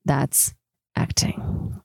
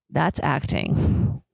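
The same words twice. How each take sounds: First: "That's acting." with "acting" breathed as a whisper; whispered repeat. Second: Said in the usual way. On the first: Shown as a demonstration.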